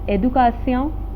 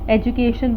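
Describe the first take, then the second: First: The word is pronounced the French way. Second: The word is pronounced the English way.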